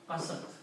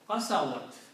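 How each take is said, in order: First: The word has two syllables, with no w sound. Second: The word has three syllables, including a w sound. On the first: "this waw drops out, it is not pronounced" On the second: "and ta with a sukoon"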